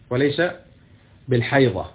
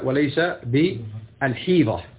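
First: The last word has an 'a' vowel after h. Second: The last word has an 'i' vowel after h. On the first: "يلفظون بالحديث هكذا" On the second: "بالكسر"

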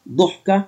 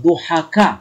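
First: The second consonant has no vowel after it. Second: The second consonant is followed by a short a. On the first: One who is laughed at. "الذي يضحك عليه" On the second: One who laughs at others a lot. "أي الذي يضحك كثيرا من غيره"

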